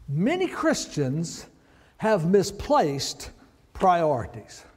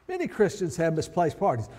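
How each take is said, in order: First: "Many Christians have misplaced priorities" said slowly, each word set apart with pauses; slow and deliberate. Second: Said in the usual way. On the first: Shown as a demonstration. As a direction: let each word land on its own, slowly.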